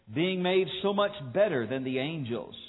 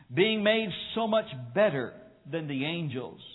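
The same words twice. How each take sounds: The two takes are said the same way.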